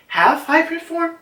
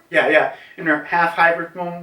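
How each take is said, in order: First: "half hybrid form?" with a big high questioning rise; unsure question. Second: Said in the usual way. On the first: Shown as a demonstration. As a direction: ask "half hybrid form?" as if checking yourself.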